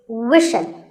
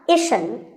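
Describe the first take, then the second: First: The syllable begins with a w sound. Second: The syllable begins with a vowel sound. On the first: The speaker calls it right. "You have to put the w sound there" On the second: The speaker calls it wrong. "it's not"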